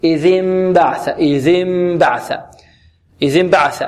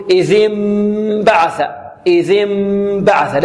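First: إذ انبعث with hummed m, lips touching without pressure; relaxed-lip ikhfa. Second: إذ انبعث with a long hummed m, lips pressed tight; pressed-lip ikhfa. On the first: Teacher models the fix, lips gently closed on the m of إذ انبعث. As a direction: let the lips rest lightly for the m in إذ انبعث. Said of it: "أو نلصق الشفتين بدون كز". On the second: Teacher imitates students' fault, lips squeezed on the m of إذ انبعث. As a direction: clamp the lips on the slow m sound in إذ انبعث. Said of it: "نحذر من كز الشفتين". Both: Shown as a demonstration.

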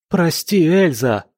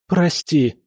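First: Higher, louder cry of apology; forced to cry his apology louder; louder plea. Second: A pained, moaning plea; forced apology moaned in pain. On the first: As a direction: shout it out on command. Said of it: "Громче!". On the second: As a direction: groan it out as if his arm is twisted. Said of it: "простонал Леопольд". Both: A narrator's reading.

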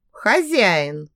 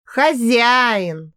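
First: Put-on firm command «Хозяин!» to the girl; stern reminder. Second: Mock bow. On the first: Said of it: "строго напомнил Эрик". (строго, с лёгким мужским голосом: «Хозяин!») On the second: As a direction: repeat «Хозяин!» with mock obedience. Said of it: "Я даже поклонилась". (насмешливо-покорно: «Хозяин!») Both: A narrator's reading.

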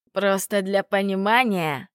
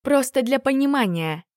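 First: Mimicking her words with scorn; mocking echo. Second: Said in the usual way. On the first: A narrator's reading. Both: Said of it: "передразнил дракон".

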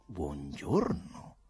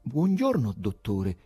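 First: Slow, low, drawn-out hello with a lift at the end; measured, courteous doctor's hello; smooth doctorly greeting. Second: High-pitched timid hello, falling away; nervous, deferential greeting. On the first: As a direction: greet the patient slowly and gently. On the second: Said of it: "disse con timidezza". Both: A narrator's reading.

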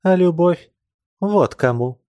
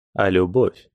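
First: Passionate answer. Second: Questioning rise. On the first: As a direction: fling it back at him with passion. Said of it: "сказала она и вдруг обвелась". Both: Acted.

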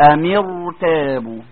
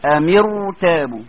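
First: "أمر تابوا" with the ra in أمر full and heavy; "أمر تابوا" with a heavy, full ra, drawn out. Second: "أمر تابوا" with the ra in أمر full and heavy once more; "أمر تابوا" drawn out with a thick ra. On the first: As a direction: say "أمر تابوا" slowly, thickening the ra. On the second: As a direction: repeat "أمر تابوا" slowly, stressing the heavy ra. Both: Shown as a demonstration. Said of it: "هنفخم الراء، أقول إيه".

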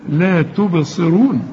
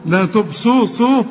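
First: تبصرون slow with a kasra under the ص; correct pronunciation. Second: تبصرون garbled as تبصوصوا; mock the sloppy تبصرون; wrong pronunciation. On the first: Shown as a demonstration. Teacher showing student the right vowel. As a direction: say تبصرون carefully. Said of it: "الصاد مكسورة". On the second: Teacher mimicking student's mistake. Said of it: "مش تقول لي".

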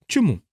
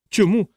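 First: Higher, curious question with a fall; mildly inquisitive, pitch dropping at the end. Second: High, astonished echo; flabbergasted question, pitched way up; stunned cry. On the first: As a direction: ask it simply, wanting to know. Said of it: "поцікавилася вона". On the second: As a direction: yelp it back in disbelief. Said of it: "зойкнув приголомшений Крісті". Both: A narrator's reading.

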